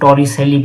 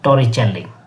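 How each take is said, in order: First: The middle consonant is an 's' sound. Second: The middle consonant is a 'ch' sound. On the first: This is how Indian schools say it. "हम भारतीय स्कूलों में इसको टॉरिसेली भी इसको pronounce करते हैं" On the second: This is how it is said in Italian. "अगर इटालियन भाषा में इसको कहें"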